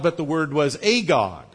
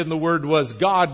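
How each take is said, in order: First: The little word "a" leaned on before God; "a" clearly marked as the point; stress on a. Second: Said in the usual way. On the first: Shown as a demonstration. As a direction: press on "a" in "a God". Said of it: "meaning that he's godlike".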